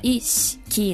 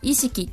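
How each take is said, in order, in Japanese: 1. 'sh'の後のiは落ちて、sだけが残る。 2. 'sh'の後のiははっきり有声になる。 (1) "標準語は意識なんで、しの音は意を言ってないんですね、S の音しか出してないんですよ" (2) "でも意識って関西の人は"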